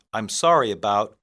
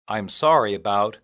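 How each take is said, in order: Both takes have the same delivery.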